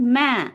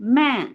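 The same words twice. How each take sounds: No difference in how they are said.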